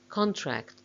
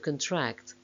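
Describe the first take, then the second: First: The stress is on the first syllable. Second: The stress is on the second syllable. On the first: It is used as a noun. "main stress of the nouns is on the first syllable" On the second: It is used as a verb. "main stress of the verbs is on the second syllable"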